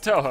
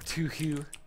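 First: The vowels are said as 'oh' sounds. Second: The vowels are said as 'oo' sounds. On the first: The speaker calls it right. "It's Toho, right? That's how you pronounce it" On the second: The speaker calls it wrong. "I mistakenly said Tuhu"

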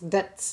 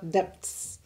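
First: The word is said without a b sound. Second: The word is said with a b sound. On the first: The speaker calls it right. "you don't pronounce the B's in debts. So it's debts" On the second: The speaker calls it wrong.

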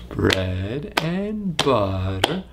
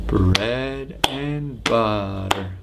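No difference in how they are said.

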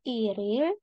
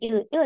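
First: The two syllables run together without a break. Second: The two syllables are said separately. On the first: The speaker calls it right. "langsung disambung" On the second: The speaker calls it wrong. "Bacanya bukan il il ya"

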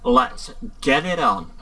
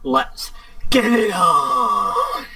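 First: It is said with little energy. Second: It is said with lots of energy. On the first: The speaker calls it wrong. "No. Wait, I could do that better" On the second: The speaker calls it right. "Yes. That was better"

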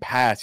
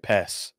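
First: The vowel is an ordinary open A sound. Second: The vowel sounds like an E sound. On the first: "instead of saying pass" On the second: "you say pess"

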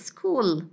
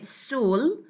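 First: The word begins with an 's' followed by a 'k' sound. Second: The word begins with a plain 's' sound and no 'k'. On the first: The speaker calls it right. "we say school" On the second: The speaker calls it wrong. "We don't say sul"

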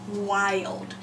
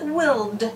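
First: The vowel is a long i sound. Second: The vowel is a short i sound. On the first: The speaker calls it right. "we are allowed to say the long I" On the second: The speaker calls it wrong. "so we really should pronounce it willed, if it follows our rule"

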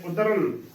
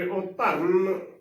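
First: The middle consonant is short, not doubled. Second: The middle consonant is doubled and held. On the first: The speaker calls it right. "ਉਦਰਨ ਉਚਾਰਨ ਕਰਨਾ ਹੈ" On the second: The speaker calls it wrong. "ਅਦਕ ਲਗਾ ਕੇ ਉਚਾਰਨ ਕਰਾਂਗੇ"

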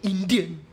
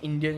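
First: The word is said with heavy, forceful stress. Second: The word is said plainly, without extra force. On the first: "He was stressed the word Indian" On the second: "he don't say Indian"

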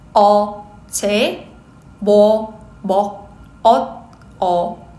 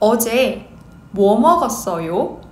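First: It is said at a slow speed. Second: It is said at a normal speed.

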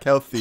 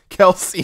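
First: The s sound is lisped, like a th. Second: The s sound is clear and crisp. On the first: The speaker calls it wrong. "I lisp" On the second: The speaker calls it right.

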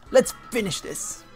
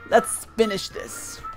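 First: It is said in a manly voice. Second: It is said in a feminine voice.

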